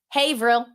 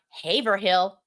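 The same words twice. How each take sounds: First: The final hill syllable is dropped. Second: The final hill syllable is clearly pronounced. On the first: The speaker calls it right. "Hill's gone" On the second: The speaker calls it wrong. "not Haverhill"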